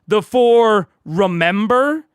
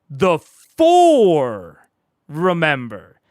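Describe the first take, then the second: First: The stress falls on the word Remember. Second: The stress falls on the word For. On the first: The focus is on the act of remembering. "We're putting like the stress on those" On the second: The focus is on which four groups remembered. "It's the four, not the six"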